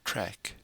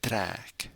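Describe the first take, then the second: First: "trek" with a short, quick e, like English; short-vowel mispronunciation. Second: "track" with a long, drawn-out eh vowel; long eh sound. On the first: Teacher showing learners how it's not said, short-vowel "trek". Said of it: "it's not". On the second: Teacher correcting learners on the vowel, long-eh "track". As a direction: hold the eh in "track". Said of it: "It's a longer eh sound". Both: Shown as a demonstration.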